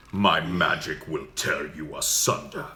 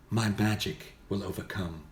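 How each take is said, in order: First: Slow, dark archmage consumed by magic; deep archmage. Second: Plain mage, gentler than an archmage; soft-spoken mage. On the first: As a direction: intone a menacing spell, low and drawn out. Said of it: "deep for that". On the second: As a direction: declare your magic in restrained wizardly tones. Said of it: "a mage might be more soft-spoken". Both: Shown as a demonstration.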